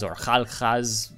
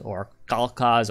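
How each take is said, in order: First: "Khalkhas" with back-of-throat kh sounds, slowly; throaty KH pronunciation. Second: "Khalkhas" with hard k sounds; hard K pronunciation. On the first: Player tries the Mongol name another way, "Khalkhas" with throaty fricative kh. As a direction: say "Khalkhas" slowly as KHAL-khaz, kh like Scottish loch. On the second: Player offers another pronunciation of the Mongol name, "Khalkhas" with hard K. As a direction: say "Khalkhas" as KAL-kaz. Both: Shown as a demonstration. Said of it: "not sure on the pronunciation".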